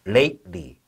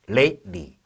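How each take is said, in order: No difference in how they are said.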